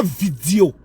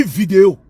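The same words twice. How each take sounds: First: Vidéo as vidio, i for é; mock the vidio sound; wrong pronunciation. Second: Vidéo with a clear é, vi-dé-o; correct pronunciation. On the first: Mocking a rival's vidio. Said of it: "On ne dit pas vidéo". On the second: Correcting a rival, clear vidéo. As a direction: say vidéo properly. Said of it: "On dit vidéo". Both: Shown as a demonstration.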